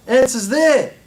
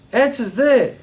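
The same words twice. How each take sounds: The two takes are said the same way.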